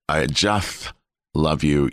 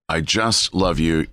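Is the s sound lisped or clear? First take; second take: lisped; clear. First: The s sound is lisped, like a th. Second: The s sound is clear, without a lisp. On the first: The speaker calls it wrong. "If I lisped it" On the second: The speaker calls it right. "rather than saying he said"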